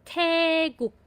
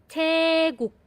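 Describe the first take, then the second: The two takes are said the same way.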